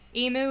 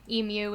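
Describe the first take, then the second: First: The word is pronounced the American way. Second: The word is pronounced the non-American way. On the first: "is the American way" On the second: "is the non-American way"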